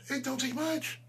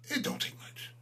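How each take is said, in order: First: High, sing-song jeer with a rising end; mock-innocent high repeat. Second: A sly whispered repeat; whispered taunt. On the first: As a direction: toss it up high as a taunt. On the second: Acted. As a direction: whisper it, mocking and breathy. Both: Repeating his line as a taunt.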